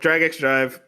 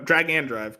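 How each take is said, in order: First: The middle word is said as the letter 'ex'. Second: The middle word is said as 'and'. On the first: The speaker calls it wrong. "God, already forgetting" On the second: The speaker calls it right. "the X is pronounced and"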